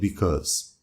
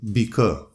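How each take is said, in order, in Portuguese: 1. A palavra é dita por completo, com o seu som final. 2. A palavra termina cedo, sem o seu som final. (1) "instead of" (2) "It is pronounced"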